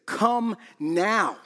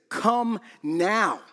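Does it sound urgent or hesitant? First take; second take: urgent; urgent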